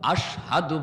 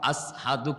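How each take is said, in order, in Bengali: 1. এই শব্দটি 'sh' ধ্বনি দিয়ে বলা হয়। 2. এই শব্দটি 's' ধ্বনি দিয়ে বলা হয়। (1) "আশহাদু বলতে পারতেন না" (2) "আসহাদু কইতেন শিন উচ্চারণ করতে পারতেন না সিন বলতেন"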